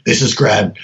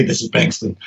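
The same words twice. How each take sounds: First: Low, gruff telephone greeting; gruff Grad voice. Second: Low, quiet reply. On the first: Friend calling late at night, low and curt. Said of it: "it would just start out going". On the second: Sleepy scientist answering the phone, low and quiet. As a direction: answer low and soft, matching him. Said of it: "and I would say". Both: Retold or imitated.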